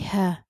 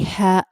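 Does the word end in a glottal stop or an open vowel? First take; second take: open vowel; glottal stop. First: The word ends on an open vowel. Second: The word ends with a glottal stop. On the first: The speaker calls it right. "you say ha" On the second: The speaker calls it wrong. "you do not say ha"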